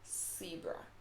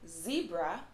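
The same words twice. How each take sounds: First: It begins with a hissing S sound. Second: It begins with a buzzing Z sound. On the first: The speaker calls it wrong. "not S" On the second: The speaker calls it right. "we pronounce the Z or the Z as Z"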